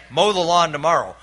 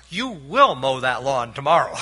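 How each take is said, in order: First: Simple order with weight on "Mow"; just say "Mow the lawn tomorrow" as an ordinary instruction; plain command. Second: "will" leaned on hard and falling; stress on WILL. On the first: Preacher contrasting a plain order with a future-tense command, said simply. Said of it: "different than just saying". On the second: Preacher showing his father's future-tense command, stressing "will". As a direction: hit "will" so the order sounds certain and final. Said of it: "Future tense". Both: Shown as a demonstration.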